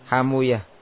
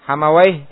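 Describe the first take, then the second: First: The name ends with a damma and uyah. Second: The name ends with a fathah and wayh. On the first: "dengan mensukun wawunya dan membomah apa yang sebelumnya" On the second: "Hamawai ya, dibaca apa?"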